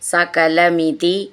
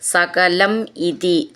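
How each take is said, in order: First: The two words are joined into one. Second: The two words are said separately.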